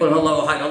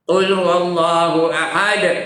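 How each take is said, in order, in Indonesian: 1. Terus jalan, tanpa jeda napas. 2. Berhenti ambil napas setelah 'ahad'. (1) "Bunyi macam betul tapi tak betul" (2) "Tarik nafas"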